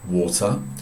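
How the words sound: It is said in a British accent. "in England we say water"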